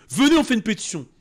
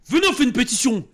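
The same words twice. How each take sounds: The two takes are said the same way.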